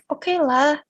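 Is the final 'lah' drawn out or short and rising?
drawn out. The final lah is hesitant and drawn out. The thing is only mediocre. "hesitating the "lah""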